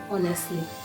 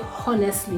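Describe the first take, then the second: First: It begins with a vowel, the H silent. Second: It begins with an audible H sound. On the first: The speaker calls it right. "you say" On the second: The speaker calls it wrong. "you will not say"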